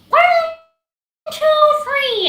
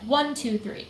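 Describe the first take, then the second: First: It is said in a tight, high, nasal voice. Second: It is said in a normal voice.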